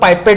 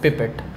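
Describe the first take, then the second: First: The first vowel sounds like eye. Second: The first vowel is a short i sound.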